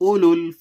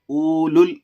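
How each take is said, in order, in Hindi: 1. पहला स्वर छोटा है, इसमें oo की आवाज़ नहीं है। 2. पहला स्वर लंबी oo की आवाज़ है। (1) "यहां पर मैं वाव को भी, दोनों वाव को ड्रॉप कर दिया हूं" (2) "उलुल नहीं"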